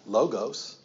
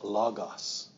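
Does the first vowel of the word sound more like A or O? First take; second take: O; A. First: The first vowel is an English O sound. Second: The first vowel sounds closer to an A. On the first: The speaker calls it wrong. "It's not logos. That's our English coming at it" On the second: The speaker calls it right. "That letter O in the Greek is more of an A"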